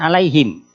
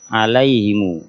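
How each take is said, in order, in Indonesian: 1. Kata ini berakhir dengan 'm' tertutup yang pendek. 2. Kata ini berakhir dengan vokal 'u' yang dipanjangkan. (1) "kalau kita kan alaihim" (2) "mimnya dipanjangkan sepanjang uh, dua harokat"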